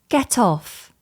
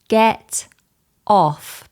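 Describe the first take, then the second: First: The two words are joined smoothly without a break. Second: The two words are said separately with a break. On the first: "we connect the sounds smoothly" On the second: "Instead of stopping and breaking the words apart"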